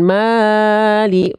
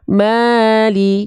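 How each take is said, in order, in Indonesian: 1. Vokal pertama ditahan terlalu lama. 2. Vokal pertama ditahan sebentar. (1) "jangan mali, Bang Iril kepanjangan" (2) "Maknya dua harokat"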